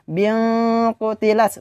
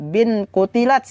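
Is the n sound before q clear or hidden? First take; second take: hidden; clear. First: The n is hidden and nasalized before q. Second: The n is pronounced clearly before q. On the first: The speaker calls it right. "harus dibaca samar dan juga harus disertai dengan dengung" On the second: The speaker calls it wrong.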